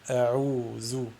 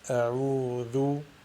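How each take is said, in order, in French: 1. La consonne du milieu est un son z bourdonnant. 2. La consonne du milieu est un th doux. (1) "ou la prononcer zey" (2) "il faut tout simplement la prononcer vel"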